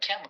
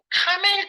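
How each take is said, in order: First: The first vowel is a flat 'a' as in cat. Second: The first vowel is an open 'ah' sound. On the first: The speaker calls it right. "캐물 있잖아 캐물" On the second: The speaker calls it wrong. "왜 발음을 카멜이라고 그러지?"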